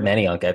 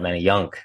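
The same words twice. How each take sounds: First: The stress falls before the last syllable. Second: The stress falls on the last syllable. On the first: The speaker calls it right. "It's not how you say it" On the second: The speaker calls it wrong. "they always put the emphasis on the Y-U-N-K"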